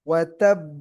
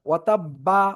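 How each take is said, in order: First: The final b bounces without any added vowel. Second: The final b is followed by an 'a' vowel. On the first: The speaker calls it right. "যেন বে না শোনা যায়" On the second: The speaker calls it wrong. "এরকম না"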